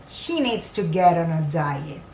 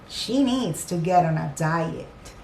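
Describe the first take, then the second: Both takes have the same delivery.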